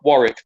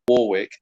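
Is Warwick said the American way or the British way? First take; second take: British; American. First: Warwick is said with the speaker's own pronunciation. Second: Warwick is said the way the listeners say it. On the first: This is the name's proper pronunciation. The speaker calls it right. "which is War- Warwick" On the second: This is how the listeners pronounce the name. The speaker calls it wrong. "not Warwick, as you guys say"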